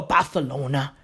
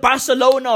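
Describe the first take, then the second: First: Barcelona with th for the c; th pronunciation. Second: Said in the usual way. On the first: Shown as a demonstration. Puzzling over Spanish names, Barcelona said with a th. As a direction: say Barcelona as "Barthelona". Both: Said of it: "Is it Barcelona or Barcelona?".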